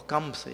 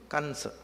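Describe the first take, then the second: First: Kamsa with an M before the S; pronounced with M. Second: Kansa with an N before the S; pronounced with N. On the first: Teacher offering the other form, Kamsa with an M. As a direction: say Kamsa with lips closed on M. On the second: Teacher giving the name's first form, Kansa with an N. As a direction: say Kansa in two syllables, N in the middle. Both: Shown as a demonstration. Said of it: "if you want to say".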